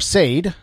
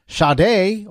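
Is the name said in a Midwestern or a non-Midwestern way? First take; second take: Midwestern; non-Midwestern. First: The name is said in a Midwestern way. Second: The name is said in a non-Midwestern way.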